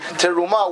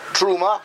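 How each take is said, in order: First: A short vowel links into the next consonant. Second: The vowel after the first consonant is dropped. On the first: The speaker calls it right. "the accurate pronunciation would be teruma, when you connect it" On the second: The speaker calls it wrong. "you're not pronouncing the shva properly"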